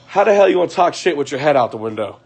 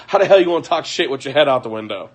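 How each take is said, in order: First: Said in the usual way. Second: Words broken by laughter; laughing. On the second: Real, not acted. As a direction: talk fast while laughing. Laughing at the boyfriend.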